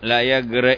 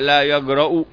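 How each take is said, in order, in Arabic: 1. ينتهي الفعل بكسرة قصيرة. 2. ينتهي الفعل بضمة قصيرة. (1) "بكسر الهمزة نهي" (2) "وبضمها خبر بمعنى النهي"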